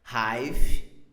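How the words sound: It is pronounced the English way. The speaker calls it right. "falando da forma em inglês"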